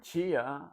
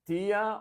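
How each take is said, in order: First: The word begins with a ch sound. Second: The word begins with a plain t sound. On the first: "they pronounce it almost like a ch" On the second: "pronounce that T the way we pronounce the T in English"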